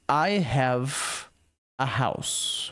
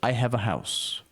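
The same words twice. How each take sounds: First: The phrase is said at a normal, careful pace. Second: The phrase is said quickly, with words run together.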